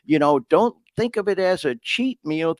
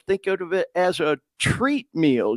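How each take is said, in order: First: "cheat" leaned on, setting it up against "treat"; "cheat meal" lightly stressed, retelling his son. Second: "treat" hit with a falling tune as the punchline; son's reframe with "treat" emphasised; stress on treat. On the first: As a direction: land on "cheat" so the swap can follow. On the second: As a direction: put the weight on "treat", correcting "cheat". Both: Retold or imitated. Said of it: "And you would say".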